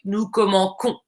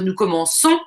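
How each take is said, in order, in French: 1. La consonne du milieu est un son k dur. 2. La consonne du milieu est un son s doux. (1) "si on n'avait pas le C cédille, ça, on dirait" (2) "nous voulons le son se"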